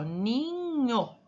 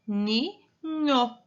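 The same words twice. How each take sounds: First: Ninho stretched in one unbroken glide; drawn-out word. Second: Ninho in two beats, ni, pause, nho; split into syllables. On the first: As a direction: draw out Ninho slowly without a break. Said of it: "vamos falar novamente". (Ninho arrastado, sem separar) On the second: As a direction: separate Ninho clearly as ni and nho. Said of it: "São duas sílabas". (Ninho dividido em ni, pausa, nho) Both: Shown as a demonstration.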